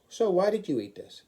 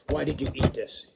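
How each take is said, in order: First: It is asked in a gentle, positive tone. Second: It is asked in an accusing, negative tone.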